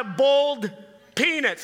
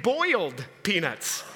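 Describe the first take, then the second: First: BOILED drawled so it sounds like "bold"; mispronounced boiled. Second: Said in the usual way. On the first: Retold or imitated. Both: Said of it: "She was saying boiled peanuts".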